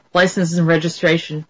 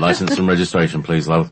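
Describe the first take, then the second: First: Level, deadpan officer demand; American cop, no emotion at all; emotionless police officer. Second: Lower-pitched London copper; casual London accent, dropping lower; London police officer. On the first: Imitating American police at a traffic stop, emotionless. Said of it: "it's sort of emotionless". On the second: London policeman to woman driver, London accent. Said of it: "That's London". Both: Acted.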